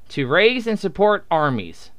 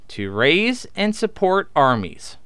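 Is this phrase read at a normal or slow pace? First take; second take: normal; slow. First: The phrase is read at a normal pace. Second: The phrase is read at a slow pace.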